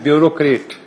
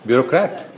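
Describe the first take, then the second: First: It is said in the common local Urdu-speaker way. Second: It is said in the standard English way. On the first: The speaker calls it wrong. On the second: The speaker calls it right.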